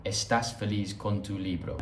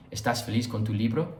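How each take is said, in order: First: "¿Estás feliz con tu libro?" as a statement, pitch settling at the end; statement intonation. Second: "¿Estás feliz con tu libro?" curling up at the end; question intonation. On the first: Teacher showing the bare Spanish sentence, "¿Estás feliz con tu libro?" in statement intonation. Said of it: "you just say the sentence". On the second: Teacher showing how Spanish asks, "¿Estás feliz con tu libro?" rising on "libro". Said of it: "curl your speech up". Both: Shown as a demonstration.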